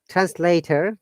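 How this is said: The T is soft and the word ends with R. "this is an American uh, pronunciation. ... T should be D and there should be R sound"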